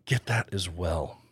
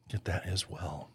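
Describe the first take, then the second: First: Said in the usual way. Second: Softer repeat, almost to himself; muttered afterthought repeat; soft echo. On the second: Acted. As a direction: drop it to an aside echo. Echoed repeat, much softer.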